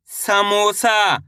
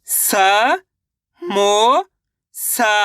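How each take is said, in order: First: Said in the usual way. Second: स, मो, सा stretched apart; syllable by syllable. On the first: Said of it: "शब्द का उच्चारण सही से हो जाएगा". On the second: Shown as a demonstration. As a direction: sound out स, मो, सा with gaps. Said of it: "एक अक्षर का उच्चारण सही से". (स, मो, सा अलग-अलग खींचकर)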